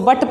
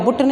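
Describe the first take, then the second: First: The vowel is a short 'uh' sound. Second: The vowel is an 'oo' sound. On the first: The speaker calls it right. "इसको बट पढ़ा जाएगा" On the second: The speaker calls it wrong. "बुट नहीं पढ़ेंगे"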